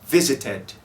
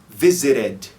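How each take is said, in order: First: The middle t is a crisp t sound. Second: The middle t is a quick r-like tap. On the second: "como se fosse um R em português"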